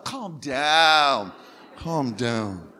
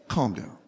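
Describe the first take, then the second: First: Drawn-out, singsong calm down; lovingly. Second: Said in the usual way. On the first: Shown as a demonstration. Preacher coaching the congregation to soothe a neighbour, lovingly. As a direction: say it like you love them, stretching it out. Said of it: "Tell them like you love them".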